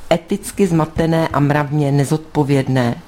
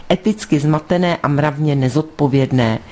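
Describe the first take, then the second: The two takes are said the same way.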